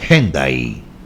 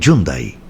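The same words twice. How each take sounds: First: It is pronounced as heard on HBN. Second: It is pronounced as heard in Argentina. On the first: "en H B N dicen Hyundai" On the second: "en Argentina dicen Hyundai"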